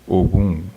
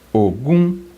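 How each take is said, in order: First: Both syllables stay on a low pitch. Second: It starts on a mid pitch and goes higher. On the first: "uma palavra com dois tons baixos" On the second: "eu tenho uma que é o médio"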